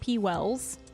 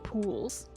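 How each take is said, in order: First: The name sounds like 'P-Wells'. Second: The name sounds like 'Pools'. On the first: This is how another person says it. "Scumshuckle pronounces it" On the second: This is how the speaker says it. "I pronounce it"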